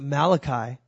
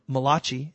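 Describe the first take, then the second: First: The name is said in a plain English way. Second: The name is said in an Italian style.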